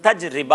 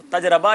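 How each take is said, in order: First: "تجربہ" said taj-ri-ba, with an i in the middle; correct pronunciation. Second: "تجربہ" said taj-ra-ba, with an a in the middle; wrong pronunciation. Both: Shown as a demonstration. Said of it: "تجربہ نہیں ہے".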